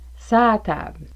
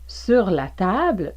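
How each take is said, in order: First: 'Sur la' merges into one long 'sa'. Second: Both words 'sur la' are fully pronounced. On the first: "vous pourriez entendre un long A, donc ça" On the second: "au lieu de sur la"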